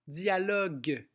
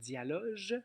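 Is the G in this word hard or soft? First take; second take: hard; soft. First: The G is hard, like in go. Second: The G is soft, like in beige. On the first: The speaker calls it right. "on a le U pour durcir le G" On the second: The speaker calls it wrong. "sinon on aurait dialoge"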